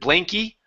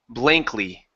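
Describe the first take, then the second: First: The L before the final vowel is left out. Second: The L before the final vowel is clearly pronounced. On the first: The speaker calls it wrong. "instead of blanky" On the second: The speaker calls it right. "Make sure to pronounce this Y, or sorry, the L"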